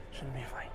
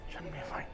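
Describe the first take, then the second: No difference in how they are said.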